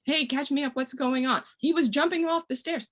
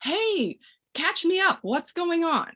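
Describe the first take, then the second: First: Higher, casual check-in; breezy friendly interjection. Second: Much higher, light and breezy to the grown-up; bright friendly interjection. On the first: Parent asking the uncle what happened, breezy and higher. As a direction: sound light and curious. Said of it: "you know". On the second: Parent cutting in on a grown-up, lightly higher and breezy. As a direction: cheerily pull the adult's attention away. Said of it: "I'm gonna take it to me and say". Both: Shown as a demonstration.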